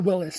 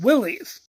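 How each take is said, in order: First: The name ends with an 'iss' sound. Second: The name ends with an 'eez' sound. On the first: This is the company's official form. The speaker calls it right. "try and reclaim their Willis name" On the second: This is the popular nickname form. The speaker calls it wrong. "the troops affectionately started pronouncing the name Willys"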